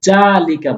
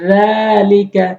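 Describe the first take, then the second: First: The word begins with a j sound. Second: The word begins with a soft th sound. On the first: The speaker calls it wrong. "জালিকা বলা যাবে না। অধিকাংশ লোক ভুল করে জালিকা বলে।" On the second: The speaker calls it right. "জালের উচ্চারণ জিহ্বার আগার সামনে দুইটি দাঁতের আগাতে লাগাবেন।"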